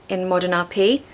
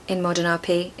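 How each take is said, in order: No difference in how they are said.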